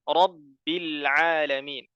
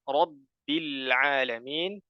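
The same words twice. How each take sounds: Both takes have the same delivery.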